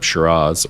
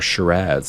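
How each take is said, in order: First: It is said in a non-Australian way. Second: It is said in the Australian way.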